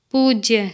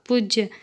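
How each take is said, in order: First: Long oo in "पूज्य"; correct pronunciation. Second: Short u in "पूज्य", like "पुज्य"; incorrect pronunciation. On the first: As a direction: say "पूज्य" with the first vowel held long. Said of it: "शुद्ध शब्द". ("पूज्य" का शुद्ध उच्चारण, लंबा ऊ) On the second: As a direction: say "पूज्य" wrongly with a brief first vowel. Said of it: "अशुद्ध शब्द". ("पूज्य" का अशुद्ध उच्चारण, छोटा उ) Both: Shown as a demonstration.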